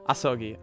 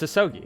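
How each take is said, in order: First: The name is said with a Japanese accent. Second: The name is said with an American accent. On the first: "I'm not gonna go Asogi, Asogi every time" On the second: "it's Asogi"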